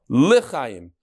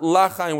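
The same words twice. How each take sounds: First: The first vowel is a short schwa. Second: The first vowel is a full 'a' sound. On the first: It asks to be granted life. The speaker calls it right. "very careful to say it with a shva" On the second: It means not to live. The speaker calls it wrong. "Not L'chaim with a patach"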